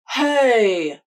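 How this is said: The voice resonates in the front mouth. "a front mouth placement"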